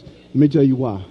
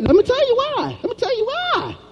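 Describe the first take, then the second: First: The voice is pushed deeper, with more bass. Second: The voice is at its normal pitch.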